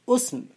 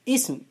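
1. أول الحركة ضمة. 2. أول الحركة كسرة. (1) "ويجوز أن تضم فتقول اسم" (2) "يجوز أن تكسر فتقول اسم"

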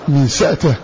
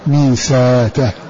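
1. تُنطق الهمزة ساكنةً بلا حركة بعدها. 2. تُبدَل الهمزة حرف مدّ. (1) "سكون همزته" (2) "وابدله"

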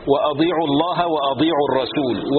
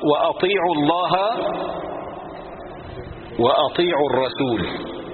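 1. يُنطق الفعل بصوت دال مفخمة. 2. يُنطق الفعل بصوت تاء مفخمة. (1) "من يخلط بين الطاء والضاد يقول وأضيعوا الله" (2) "وأطيع طاء"

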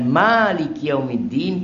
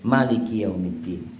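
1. Vokal pertama 'ma' dibaca panjang. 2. Vokal pertama 'ma' dibaca pendek. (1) "panjang manya" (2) "atau pendek"

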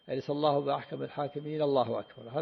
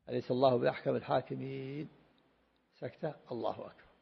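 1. تأتي العبارة الأخيرة متصلة مباشرة دون سكتة. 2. تأتي سكتة قصيرة قبل العبارة الأخيرة. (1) "يصل القراءة بالتكبير" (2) "سكتة يفصل فيها القراءة عن التكبير"

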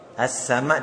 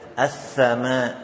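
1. Konsonannya adalah bunyi s. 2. Konsonannya adalah bunyi th.

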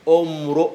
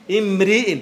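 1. الحركة بعد الراء والهمزة هي u. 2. الحركة بعد الراء والهمزة هي i. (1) "إذا كانت مرفوعة قلت امرؤ" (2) "فكانها مجرورة على الهمزة وعلى الراء"

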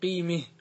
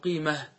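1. تميل الفتحة نحو الكسرة. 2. تبقى الفتحة مفتوحة. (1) "يجوز عند الوقف أن تميل" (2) "بالهاء صح؟ تقول قيمة"

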